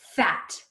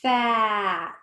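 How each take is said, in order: First: The word is said quickly as one unit. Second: The word is stretched out slowly, sound by sound. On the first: "Let's say it fast like a word" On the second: "Let's blend it slowly"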